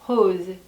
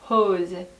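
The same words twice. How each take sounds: First: The r is soft and light, like an h. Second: The r is soft and light, like an h.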